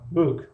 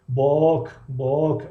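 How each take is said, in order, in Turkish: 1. Ünlü kısa bir 'oo' gibi söylenir. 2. Ünlü düz bir 'o' gibi söylenir. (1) "не ки book хондаш мешавад" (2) "агар ба тоҷикӣ ё ки ба русӣ мисол биёриш, бок бок бояд бихониш"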